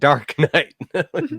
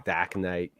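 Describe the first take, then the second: First: The r in 'Dark' is clearly pronounced. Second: The r in 'Dark' is dropped entirely. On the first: "Dark, D A R K. Can't mispronounce that" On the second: "in Rhode Island, where it's the Dak Knight"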